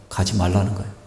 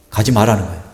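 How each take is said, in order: First: Said in the usual way. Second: 가지 stressed, then a falling end. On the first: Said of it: "네 신학대학원 가서는 안 된다고". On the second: Retold or imitated. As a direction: lean hard on 가지 in disbelief. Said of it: "밀어주시던 분이 갑자기".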